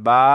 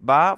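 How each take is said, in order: First: The vowel is drawn out long. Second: The vowel is short and quick. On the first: "বা long time reads" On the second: "বা fast reads"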